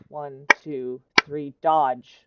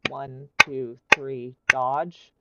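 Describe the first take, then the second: First: Dodge comes early, right after three. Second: Dodge lands a full beat after three. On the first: The speaker calls it right. "a beat before" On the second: The speaker calls it wrong. "let me do like a clap with it"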